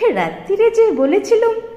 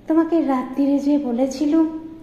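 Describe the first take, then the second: First: It is said in a mocking, mimicking voice. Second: It is said plainly in the daughter's voice.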